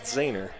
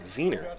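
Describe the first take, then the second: First: The first vowel sounds like 'ah'. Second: The first vowel sounds like 'ee'. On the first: This is how the family says it now. "his name is pronounced Zahner" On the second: This is how an earlier generation said it. "His grandfather actually they had pronounced it Zener"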